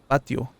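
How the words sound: It has the speaker's native-language pronunciation. "we call it the the the patio. Patio. That's that's how we pronounce it"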